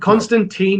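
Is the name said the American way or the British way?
American. The name is said with an American pronunciation. The speaker calls it wrong. "is the American pronunciation because that's how Americans read it"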